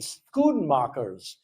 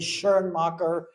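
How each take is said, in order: First: The name is said with a Dutch pronunciation. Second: The name is said with a German pronunciation. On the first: "in Dutch or Flemish, that would be Schoenmakers" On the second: "Some people will pronounce it the German way"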